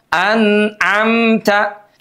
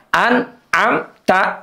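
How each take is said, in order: First: The n sound is held smoothly and fully. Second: The n sound is cut off abruptly. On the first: The speaker calls it right. "huruf nunnya diucapkan dengan sempurna" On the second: The speaker calls it wrong. "Jangan sampai izharnya diputus bunyinya kayak sakta. ... Bukan begitu"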